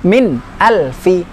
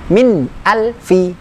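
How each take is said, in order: Both takes have the same delivery.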